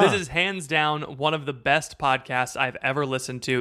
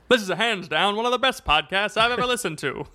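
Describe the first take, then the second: First: It is read in a plain, ordinary speaking voice. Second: It is read in an old-time sports announcer voice.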